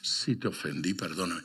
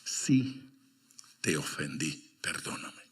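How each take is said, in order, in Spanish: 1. La primera palabra sigue sin pausa. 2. Hay una pausa después de la primera palabra. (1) "No, no funciona así" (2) "funciona con coma"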